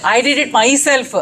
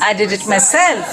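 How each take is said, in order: First: I did it myself with DID stressed; wrong stress on did. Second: Myself with the stress on SELF. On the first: Teacher showing the wrong stress, DID stressed. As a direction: stress DID instead of self. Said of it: "So we don't say". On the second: Teacher modelling the right stress on SELF. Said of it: "the self and ever get the stress". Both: Shown as a demonstration.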